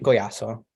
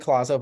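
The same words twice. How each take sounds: First: Collazo with a Spanish double L as a Y, ko-YAH-so; Spanish pronunciation. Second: Collazo with an English L sound, kuh-LAH-zoh; English pronunciation. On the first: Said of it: "but in the Spanish accent". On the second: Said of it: "So in the English way". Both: Shown as a demonstration.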